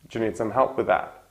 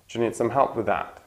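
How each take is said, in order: First: The th and z merge into one sound. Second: The th and z merge into one sound.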